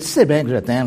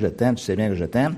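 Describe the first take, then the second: First: The voice sounds irritated and exasperated. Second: The voice sounds warm and sincere. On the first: The tone cancels the loving message. "Puis l'intonation dit, mais oui" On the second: The speaker truly expresses love. "le contenu s'en vient dans une direction"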